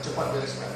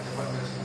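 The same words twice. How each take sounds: First: Said in the usual way. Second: Whispered repeat. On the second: Shown as a demonstration. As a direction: whisper it, no voice at all.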